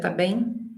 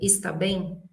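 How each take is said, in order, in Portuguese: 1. A primeira palavra é encurtada para uma sílaba. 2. A primeira palavra é dita por inteiro. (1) "aquilo que você ouve é diferente do que você lê" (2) "Olha como é que se escreve"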